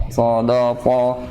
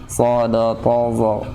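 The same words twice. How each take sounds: The two takes are said the same way.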